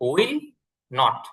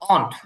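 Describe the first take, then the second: First: Both words are said fully and separately. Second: The words are squeezed into one short syllable. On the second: "উইল নট কে সংক্ষেপে ব্যবহার করে অন্ট"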